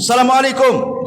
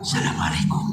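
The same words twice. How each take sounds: First: The greeting is said in a loud voice. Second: The greeting is said in a quiet voice. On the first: The greeting is heard by others. The speaker calls it right. "Jadi dikeraskan, kencangkan kalau salam itu" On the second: Others cannot hear the greeting. The speaker calls it wrong. "mengucapkan salam dengan suara pelan"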